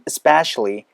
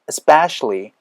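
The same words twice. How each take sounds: First: The opening vowel sound is almost dropped. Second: The opening vowel sound is clearly pronounced. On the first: "이 사운드가 거의 빠지면서" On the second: "원래는 이 사운드가 나야 되는 게 맞아요"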